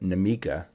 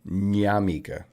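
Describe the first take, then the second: First: The name begins with a plain N sound. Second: The name begins with an NY sound. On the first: "it's just straight in" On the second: "like the Spanish tilde where it's like nya"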